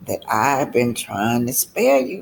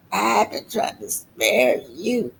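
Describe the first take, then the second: First: Said in the usual way. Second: I've jumps up high, then the line falls; stress on I've. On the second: Retold or imitated. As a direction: lean hard on I've and let the rest drop. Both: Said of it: "and he's saying".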